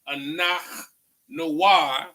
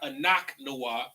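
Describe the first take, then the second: First: The middle consonant is a throaty ch sound. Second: The middle consonant is a hard k sound. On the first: The speaker calls it right. "it's not a ka, but a ha" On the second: The speaker calls it wrong.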